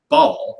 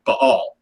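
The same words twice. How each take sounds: First: Baal said as one syllable, like "ball"; one-syllable pronunciation. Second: Baal split in two, "ba-ALL"; correct two-syllable pronunciation. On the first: Host names the Canaanite god, Baal in one syllable. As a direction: run the vowels of Baal together into one long sound. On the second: Host corrects the god's name, Baal in two syllables. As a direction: break Baal between the A's, stressing the second half. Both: Shown as a demonstration. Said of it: "if you're pronouncing it correctly".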